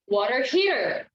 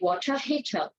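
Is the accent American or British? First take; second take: American; British. First: It is said in an American accent. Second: It is said in a British accent. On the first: "American English rather" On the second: "But then British, they would say"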